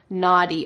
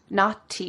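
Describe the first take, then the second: First: The middle consonant sounds like a soft D. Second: The middle consonant is a clear T. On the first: The speaker calls it right. "in American English, we would say naughty" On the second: The speaker calls it wrong. "with a clear T sound"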